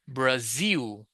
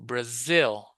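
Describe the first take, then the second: First: The second vowel is a long 'ee' sound. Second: The second vowel is a short 'i' sound. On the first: The speaker calls it wrong. "I doesn't have E sound like it's not Brazil" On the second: The speaker calls it right. "No, Brazil"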